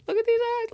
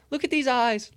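First: Much higher, squealing with delight; the voice flies up, nearly a squeal; squealing excitement. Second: High, excited call to look. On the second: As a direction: point at the eyes, thrilled and high. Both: Real, not acted. Zooming in on NFT eyes.

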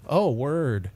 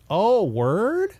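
First: Said in the usual way. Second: "Oh, word?" rises high at the end like a question; rising "word". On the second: Shown as a demonstration. Showing the slang to friends, a rising question on "word". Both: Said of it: "With a question mark at the end?".

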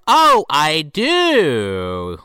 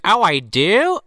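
First: "Oh, I do" very drawn out, swooping and falling; knowing realisation. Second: "Oh, I do?" with a rising, questioning end; surprised question. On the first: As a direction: stretch "I do" slowly with a wink in it. Knowing repeat followed by "Wink. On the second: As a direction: ask "I do" as if just finding out. Acted surprised question, then knowing answer. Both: Retold or imitated.

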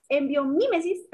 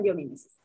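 First: Biomimesis slowed, bio-MÍ-mesis; slow self-correction leaning on the MI of "biomimesis"; stress on MI. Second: Said in the usual way. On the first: Real, not acted. Guest corrects her own slip to the host, stress on MI in biomimesis.

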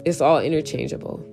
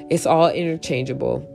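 Both takes have the same delivery.

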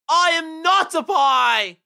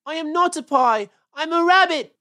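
First: High, loud, drawn-out yell; huge stretched-out shout of defiance; defiant battle cry. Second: High, loud rabbit wail; loud, upset cry of protest. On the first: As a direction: bellow it slowly as a rallying cry. Trapped rabbit's climactic battle cry. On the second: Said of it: "wailed Peter suddenly". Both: Acted.

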